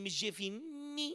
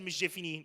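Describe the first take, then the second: First: The N sound in the name is emphasized. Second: The N sound in the name is plain. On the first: The two people have a formal relationship. "you need to put an emphasis on the letter N" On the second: The two people are friends. "Nobody said it like that"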